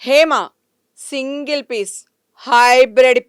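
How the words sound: It is said in an angry, fierce tone. "అదే కోపంతో"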